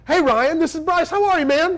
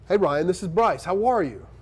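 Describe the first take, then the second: First: The greeting is said in an excited, lively way. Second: The greeting is said in a calm, serious way.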